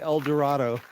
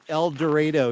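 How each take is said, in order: First: It uses the general American pronunciation. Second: It uses the local Kansas pronunciation. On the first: This is how outsiders say it. "the rest of the world saying El Dorado" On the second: This is how locals say it. "they pronounce it El Dorado here in Kansas"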